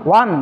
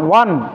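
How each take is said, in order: First: It ends in a clear n sound. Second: The same.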